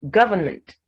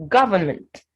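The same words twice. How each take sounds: Both takes have the same delivery.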